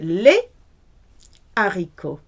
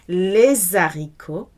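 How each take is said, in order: First: A short pause separates the two words. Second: The two words run together with a linking sound. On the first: The speaker calls it right. "You pause it in between" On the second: The speaker calls it wrong. "You cannot do the merging sound"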